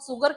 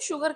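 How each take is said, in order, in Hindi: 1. यह शब्द साधारण 's' ध्वनि से शुरू होता है। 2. यह शब्द 'sh' ध्वनि से शुरू होता है।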